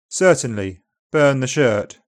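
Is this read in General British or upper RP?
General British. It is read in General British, vowels less open. "then in GB"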